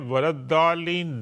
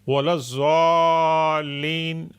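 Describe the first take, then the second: First: The consonant is pronounced like a plain d. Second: The consonant is pronounced like a z. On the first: "दाल की तरफ पढ़ना वो भी रॉन्ग है" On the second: "वलज़ालीन वो भी रॉन्ग है"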